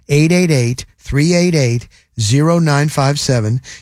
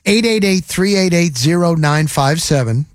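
First: The number is read more slowly. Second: The number is read at normal speed.

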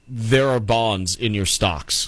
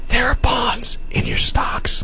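First: It is spoken in a normal voice. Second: It is spoken in a whisper.

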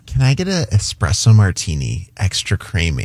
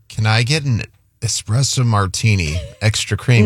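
First: It is said in a sexy, sultry voice. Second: It is said in a plain, ordinary voice.

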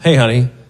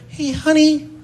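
First: It is said in a normal voice. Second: It is said in an annoying reedy voice.

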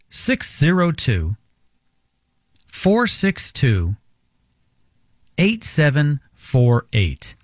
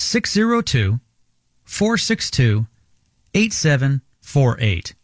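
First: The number is said more slowly. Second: The number is said at normal speed.

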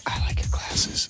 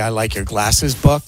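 First: It is whispered. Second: It is spoken in a normal voice.

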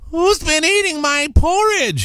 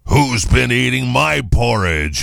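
First: It is said in a small squeaky voice. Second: It is said in a big roaring voice.

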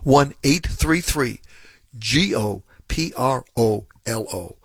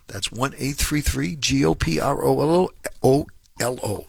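First: It is said slowly. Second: It is said at normal speed.

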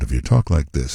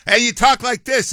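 First: It is said in a soft, calm NPR voice. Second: It is said in a loud, brash talk-host voice.

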